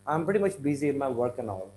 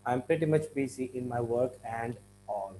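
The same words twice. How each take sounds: First: Quick sentence with "work and all" as "work-an-all"; linked. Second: "and" fully sounded with its D, apart from "all"; softly, word by word on "work and all"; unlinked. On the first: Teacher shows how it will be sounding, linked and quick. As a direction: run it together fast, no D in "and". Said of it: "So it will be sounding as". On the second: Teacher shows what we don't want, unlinked "and all". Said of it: "the D is going to have". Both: Shown as a demonstration.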